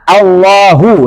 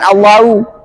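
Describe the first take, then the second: First: The ha sound is clearly heard. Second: The ha sound is faint. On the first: The speaker calls it right. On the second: The speaker calls it wrong.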